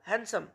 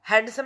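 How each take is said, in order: First: The D sound is silent after the N. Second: The D sound is pronounced after the N. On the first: The speaker calls it right. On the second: The speaker calls it wrong.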